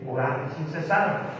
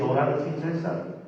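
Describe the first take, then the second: First: The last word is stressed on its second syllable. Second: The last word is stressed on its first syllable. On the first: Pray without stopping. The speaker calls it right. "Hay un acento en la palabra cesar. Que quiere decir sin detenerse" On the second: Pray without a man named César. The speaker calls it wrong. "algunos otros locos sacan a César de la oración"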